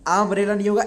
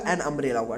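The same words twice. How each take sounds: First: Said in the usual way. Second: "एन umbrella" given as the right answer, lower and softer; correct form. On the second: Shown as a demonstration. (सही रूप "एन umbrella" शांत स्वर में समझाते हुए)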